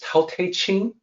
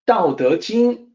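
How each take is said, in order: First: It begins with aspirated T and has a CH sound. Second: It begins with unaspirated D and has a J sound. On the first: The speaker calls it wrong. "when they misread it as Tao Te Ching" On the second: The speaker calls it right. "was always meant to sound with the D sound out with the D sound and the J sound"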